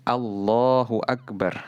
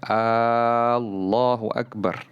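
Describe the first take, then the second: First: The first vowel of Allahu is kept short. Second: The first vowel of Allahu is drawn out long. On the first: It states that God is the greatest. The speaker calls it right. "tapi Allahu Akbar" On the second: It asks whether God is the greatest. The speaker calls it wrong. "Tidak dibaca Allahu Akbar"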